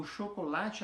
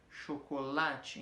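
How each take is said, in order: First: Said in the usual way. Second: "Chocolate" slow, beat by beat, weighted on "la"; stress on third beat. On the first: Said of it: "a tônica". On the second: Shown as a demonstration. Teacher showing four-beat metre, slow "Chocolate" landing on "la". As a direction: count out "Cho-co-la-te" slowly, leaning on "la". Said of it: "o lá tá no meio forte".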